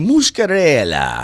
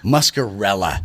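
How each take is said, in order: First: The name is said with an Italian-sounding pronunciation. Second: The name is said in a plain English way.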